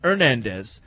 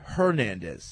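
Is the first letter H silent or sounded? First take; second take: silent; sounded. First: The name begins without an H sound. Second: The name begins with an audible H sound. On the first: The speaker calls it right. "In Spanish, the H is silent, so the name should be pronounced Hernandez" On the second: The speaker calls it wrong. "not Hernandez"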